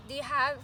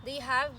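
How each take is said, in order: Both takes have the same delivery.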